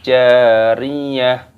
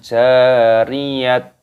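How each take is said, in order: First: The word ends with an h sound. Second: The word ends with a t sound. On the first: The speaker calls it right. "maka diganti dengan huruf H" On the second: The speaker calls it wrong. "Bukan jariyat, bukan seperti itu"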